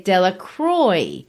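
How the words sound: The name is said with an English-style pronunciation. This is how the family in the story says the name. "They say Delacroix. Now, that's a corruption of the original"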